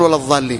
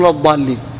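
First: The word is said with a heavy th sound. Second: The word is said with a heavy d sound. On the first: Those who remain in place. The speaker calls it wrong. "المفروض أن الإنسان ما يقول ولا الضالين" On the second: Those who went astray. The speaker calls it right. "يقول ولا الضالين، لأن المعنى يختلف"

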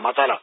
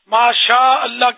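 First: It is slurred into something like 'masala'. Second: It is said fully and clearly as 'masha Allah'. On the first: The speaker calls it wrong. "ہمارے یہاں تو مسالہ مسالہ مسالہ" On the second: The speaker calls it right. "یہ تلفظ یاد کر لیں"

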